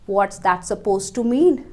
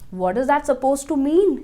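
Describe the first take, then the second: First: The words 'what is' are contracted together. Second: The words 'what is' are said separately.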